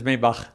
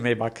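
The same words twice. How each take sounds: First: The name is said with a German pronunciation. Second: The name is said with an English pronunciation. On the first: "in German is Maybach" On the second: "Maybach is fine"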